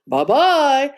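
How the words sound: It is said in a deep, gruff voice.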